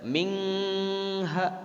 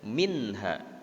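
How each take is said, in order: First: The n is blurred into a nasal ng. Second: The n sound is pronounced clearly. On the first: The speaker calls it wrong. "Tidak mingha" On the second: The speaker calls it right. "nun matinya di situ terbaca jel, jelas"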